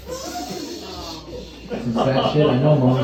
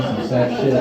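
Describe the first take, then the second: First: Very slow, drawn-out mock gloom; mock sad. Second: Said in the usual way. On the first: Comedian mourning Kermit's suicide, drawn-out mock sorrow. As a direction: drag it out like a sigh.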